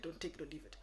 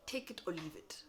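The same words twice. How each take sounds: First: Gentle, polite "take it or leave it"; polite version of the line. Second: Flat whispered ultimatum; curt dismissal; blunt. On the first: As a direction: soften the ultimatum. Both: Shown as a demonstration. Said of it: "say it in a polite way".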